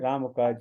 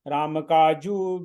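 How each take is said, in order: First: The second word ends in a consonant, 'kaaj'. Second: The second word ends in an added 'u' vowel. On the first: The speaker calls it right. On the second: The speaker calls it wrong.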